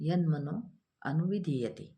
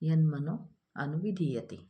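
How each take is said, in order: No difference in how they are said.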